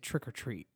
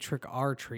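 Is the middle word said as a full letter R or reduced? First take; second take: reduced; letter R. First: The middle word is reduced to a quick 'er'. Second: The middle word is said like the letter R. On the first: The speaker calls it right. "You'd say Trick or Treat" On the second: The speaker calls it wrong. "You probably wouldn't say Trick or Treat"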